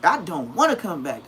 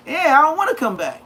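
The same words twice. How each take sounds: First: Said in the usual way. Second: Loud, high, insistent vow; emphatic promise. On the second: Retold or imitated. Telling the guards he won't come back, loud. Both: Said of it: "I used to tell them just like that".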